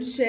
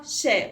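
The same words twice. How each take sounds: First: شا with the vowel held long. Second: شا said short and quick; no stretch on the vowel of شا. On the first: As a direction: stretch شا out on one note. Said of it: "عاوزة أطولها وأقول شا". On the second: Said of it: "قصيرة يا مس". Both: Shown as a demonstration.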